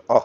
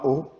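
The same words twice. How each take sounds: First: O as an open "aw", like French o in porte; isolated O, open and rounded; open O sound. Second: O as a closed "oh", as in French eau; isolated O, closed and rounded; French O sound. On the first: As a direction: say O open, the reversed-C vowel. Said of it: "On prononce O". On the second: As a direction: say O with tightly rounded lips. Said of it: "même prononciation qu'en français". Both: Shown as a demonstration.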